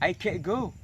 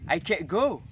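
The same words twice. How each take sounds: The two takes are said the same way.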